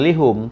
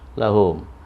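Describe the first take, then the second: First: The first vowel is i. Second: The first vowel is a. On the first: The speaker calls it wrong. "jadi bukan lihum" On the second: The speaker calls it right. "tapi la lahum"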